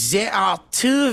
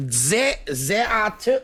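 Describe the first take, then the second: First: Lightly put-on French accent, higher; a hint of a mock French voice. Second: Mock French accent, pitched up. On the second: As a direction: ham up a French accent on the restart. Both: Reading the news for friends in a mock French accent. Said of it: "Can you do it in a French accent?".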